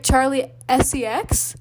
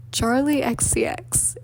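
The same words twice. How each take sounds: First: Slow, questioning "S E X", rising at the end; imitating a confused listener spelling "S E X"; puzzled mishearing. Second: Slow, laboured delivery of the name; drawn-out, careful attempt at the name; struggling to say it. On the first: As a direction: repeat it back in doubt, "S E X" as a question. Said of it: "they're like". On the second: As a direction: spell out "X C X" slowly, letter by letter. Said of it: "I was, like, really struggling".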